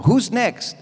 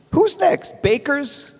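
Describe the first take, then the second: First: Said in the usual way. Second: Who's next? asked much higher in mock alarm; alarmed, rising. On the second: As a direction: ramp up the panic on the repeat. Repeated question escalated.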